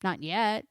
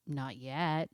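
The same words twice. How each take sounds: First: Rising, teasing "Not yet" with a lift on "yet"; firm not yet. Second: "Not yet" dropped lower and softer, like an aside; quiet repeat. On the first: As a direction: toss out "Not yet" as a playful tease. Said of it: "your new dog is not sleeping on the bed". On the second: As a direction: mutter "Not yet" low under your breath. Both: Shown as a demonstration.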